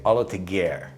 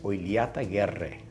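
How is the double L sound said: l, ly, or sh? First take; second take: l; ly. First: Anglicized, with a plain L and no rolled R. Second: A rolled R and a ly sound. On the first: This is the simplified local form. "the Australians say Olateguer" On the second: This is the proper form. "if you were to say it properly, it's Oiliataguerre. So you got to roll that R, and the two L's are, is a lia sound"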